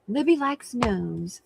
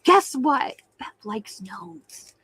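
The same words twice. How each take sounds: First: Said in the usual way. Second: A hint of a gossipy tattler, slow and hushed on the news; teasing tattle-tale voice, drawn out; mock tattletale. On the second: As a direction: playfully imitate a friend running to spill a secret. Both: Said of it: "running off to tell her".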